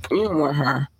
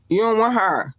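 First: Said in the usual way. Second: You don't want her pitched high on want; high emphatic warning. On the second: Shown as a demonstration. Warning listeners off the mean one, high and pointed. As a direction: lift the voice on want.

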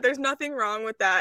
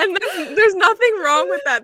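First: Said in the usual way. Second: Higher, louder, through a laugh. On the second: Real, not acted. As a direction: brush it off with a laugh. Laughing reassurance, then repeated.

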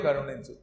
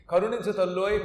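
First: Lower, sinking repeat of the plea; Indra's second plea, dropped much lower; trembling plea. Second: Loud, begging cry for mercy; trembling plea. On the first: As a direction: let the plea drop low and small. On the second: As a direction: beg the mother for mercy. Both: Retold or imitated. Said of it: "గజగజ వణికిపోతూ".

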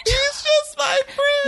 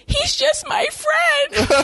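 First: High, slow mock squeak through laughter; laughing mock. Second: High, slow, whiny mock of the girl; mocking high whine. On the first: Friend repeating the girl's excuse, high mock voice through laughter. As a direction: parrot her line while cracking up. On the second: Mocking the girl as she insists he's just a friend, high and whiny. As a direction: squeak it out like a lying girlfriend.

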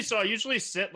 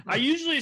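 First: Said in the usual way. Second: Laughing it off, pitch jumping high; embarrassed little laugh through the words. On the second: Real, not acted. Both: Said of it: "[name], you feeling all right over there?".

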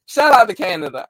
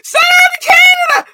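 First: Said in the usual way. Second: High, loud screamed shout-out; excited shout-out. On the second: Real, not acted. Streamer greeting viewers, screaming with joy. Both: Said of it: "that's how I'm bringing everybody in".

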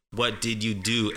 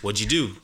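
First: "What did you do?" with every word sounded; careful, word-by-word "What did you do"; full form. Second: "What'd you" squeezed into "wudju"; quick linked "wudju do"; easy blended form. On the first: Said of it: "it just doesn't make any sense to say". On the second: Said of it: "It's just better, it's easier". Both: Shown as a demonstration.

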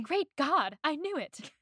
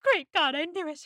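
First: Lightly acted, higher exclamation; a mild dramatic outburst, pitched up; Lizzie's expletive. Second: High, loud dramatic exclamation; hammed-up outburst, bursting out high; Lizzie's expletive. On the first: Quoting Lizzie's funny expletive, lightly dramatic. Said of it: "Lizzie had some expletive". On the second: Correcting the impression of Lizzie, more dramatic and loud. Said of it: "But it was more like".

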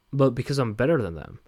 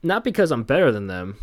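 First: "better" pushed hardest, with a falling end; "better than them" landed smugly; stress on better. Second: "because" lifted and louder, higher than the rest; "Not because" pushed up before "better"; stress on because. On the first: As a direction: hit "better" for the punchline. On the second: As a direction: lean on "because" as the setup. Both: Shown as a demonstration. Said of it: "That, that's a joke".

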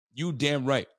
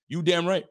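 First: Said in the usual way. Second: Higher, louder you damn right; pumped-up you damn right; hyped agreement. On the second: Real, not acted. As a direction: shout it in agreement.

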